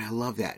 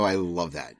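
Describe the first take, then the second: First: It sounds casually enthusiastic and offhand. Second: It sounds dry and sarcastic. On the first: A casual phrase, not real love. "There's the phrase love" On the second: The speaker actually dislikes it. "Then there's sarcastic, like"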